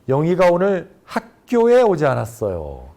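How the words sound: The stress falls on the word 학교에. She went somewhere other than school. "학교에를 강조하게 되면"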